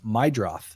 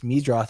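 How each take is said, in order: First: The first syllable sounds like 'my'. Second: The first syllable sounds like 'mead'. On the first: The speaker calls it right. "It's Mydroth" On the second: The speaker calls it wrong. "is not pronounced that way?"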